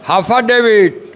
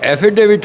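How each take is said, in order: First: The word begins with an h sound. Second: The word begins with a vowel sound. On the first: It imitates someone else's mispronunciation. The speaker calls it wrong. "हाफा डेविट कहते हैं" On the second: It is the standard pronunciation. The speaker calls it right. "हाफा डेविट नहीं होता, एफिडेविट होता है"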